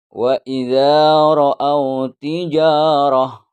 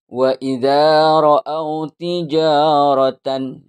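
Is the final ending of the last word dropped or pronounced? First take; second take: dropped; pronounced. First: The last word ends cut short without its ending. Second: The last word ends with its full final syllable. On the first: "dibaca sukun ini" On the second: "dibaca semua"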